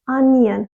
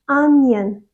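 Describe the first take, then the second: Both takes have the same delivery.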